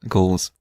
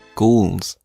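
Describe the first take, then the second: First: The word is pronounced lazily and loosely. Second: The word is pronounced carefully and fully. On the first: "You can say it lazily as well" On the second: "you have to say properly"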